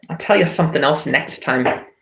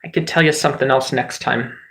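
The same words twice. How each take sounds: First: Mock British accent, teasing the viewer. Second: Said in the usual way. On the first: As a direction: repeat the line in a light British accent. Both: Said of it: "do an accent at you".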